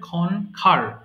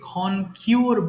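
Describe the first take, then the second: First: The second syllable sounds like 'ker'. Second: The second syllable sounds like 'kyoor'. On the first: The speaker calls it right. "এটা উচ্চারণ হবে ক্ষণখার" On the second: The speaker calls it wrong. "আমরা ভুল করে এটাকে ক্ষণ কিওর বলি"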